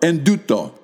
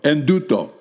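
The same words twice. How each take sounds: First: Words run together, n and t become nd. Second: The same.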